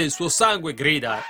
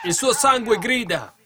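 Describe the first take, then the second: First: Said in the usual way. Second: High, loud, slower repeat; emphatic cry. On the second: Acted. Preacher crying out God's words about Abel's blood, emphatic. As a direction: cry it out from the pulpit, drawn out.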